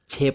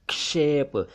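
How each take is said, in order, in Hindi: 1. शब्द 'ch' ध्वनि से शुरू होता है। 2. शब्द 'ksh' ध्वनि से शुरू होता है। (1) "छेप नहीं"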